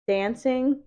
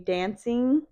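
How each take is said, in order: First: The ending is said in a standard accent. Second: The ending is said in a Chicano accent. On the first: "instead of dancing" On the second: "verbs that end in ing will kind of change the pronunciation"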